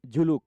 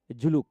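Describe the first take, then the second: No difference in how they are said.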